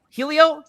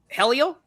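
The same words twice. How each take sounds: First: "Helio" with a long ee, HEE-lee-oh; alternative pronunciation. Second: "Helio" with a short e, HEL-ee-oh, as a question; questioned pronunciation. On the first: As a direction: ask "Helio?" starting like "heel", high and louder. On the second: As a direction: ask "Helio?" starting like "hell", higher pitched. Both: Shown as a demonstration. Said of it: "do we have a correct pronunciation there".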